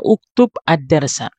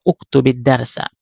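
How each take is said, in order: First: The words are said separately with the initial vowel. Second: The words are linked with an i vowel. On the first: "asal kata inilah" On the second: "ketika kita sambung ... maka diganti dengan kasrah"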